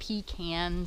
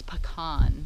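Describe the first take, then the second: First: The word begins like 'pee', as 'pee can'. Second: The word does not begin like 'pee'. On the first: The speaker calls it wrong. "Don't be given none of that pecan stuff. A pecan is something that like truck drivers use" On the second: The speaker calls it right. "the proper pronunciation is pecan"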